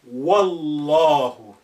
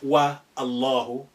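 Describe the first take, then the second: First: Wa runs straight into the next word. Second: A separate a vowel follows wa. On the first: The speaker calls it right. "you say Wallahu" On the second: The speaker calls it wrong. "not wa Allahu"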